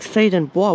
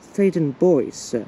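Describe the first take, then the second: First: The last word is said the French way, 'bwah'. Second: The last word is said like English 'boys'. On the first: The speaker calls it wrong. "most people actually tend to mispronounce the station as like" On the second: The speaker calls it right. "But it's actually"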